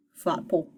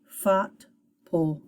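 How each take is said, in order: First: "fot, pull" run together as one word; blended syllables. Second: "fot" and "pull" said as separate syllables. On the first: Teacher reads the finished pseudo word, blended. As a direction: join "fot" and "pull" without a gap. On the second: Teacher putting a pseudo word together, syllable by syllable. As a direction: split it: "fot", short gap, "pull". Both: Shown as a demonstration. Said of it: "Put them together".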